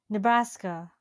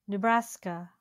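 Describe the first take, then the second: The two takes are said the same way.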